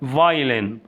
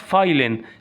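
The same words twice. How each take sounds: First: The word starts with a V sound. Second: The word starts with an F sound. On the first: The speaker calls it right. "اسمها" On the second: The speaker calls it wrong. "ما اسمهاش"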